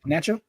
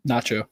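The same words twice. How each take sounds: First: Nacho with a short a as in cat; British pronunciation. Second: Nacho with an open ah, NAH-cho; American pronunciation. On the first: Retold or imitated. Asking co-host about British usage, nacho said NATCH-oh. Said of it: "everybody in the U K call it". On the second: Shown as a demonstration. Answering co-host's question, American-style Nacho with an ah. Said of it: "what do you call it?".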